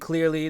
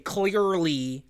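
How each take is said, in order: First: The vowels are said in a casual, ordinary way. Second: The vowels are drawn out and overly crisp. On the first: "instead of saying clearly" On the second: "they say clearly. Like they're they're very pronunciative of certain syllables"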